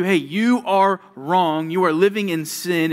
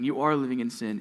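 First: Louder, slower, pointed rebuke; stern rebuke. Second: Said in the usual way. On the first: Acted. God's word telling the listener they are wrong, a stern loud rebuke. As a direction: confront the sinner head on.

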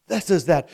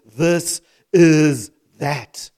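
First: Said in the usual way. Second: THIS... IS... THAT, each word drawn out and loud; slow emphatic quote. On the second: Shown as a demonstration. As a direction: hammer each word of "This is that" very slowly. Preacher hammers the quoted phrase word by word.

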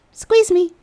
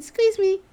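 First: High, loud playful plea; flirty squeeze request. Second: High, breathy-free swoon on "Squeeze"; dreamy squeeze me. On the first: Asking the handsome man in the tub, high playful coo. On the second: Remembering his hug, high swooning coo. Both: Retold or imitated.

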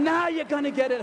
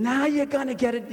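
First: High shrieked taunt in a put-on woman's voice; retold scream. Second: Pitched-up mock taunt; retold scream. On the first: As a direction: mimic her gleeful shriek. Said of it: "She's screaming". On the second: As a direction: imitate a woman shrieking a taunt. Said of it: "this lady is screaming".

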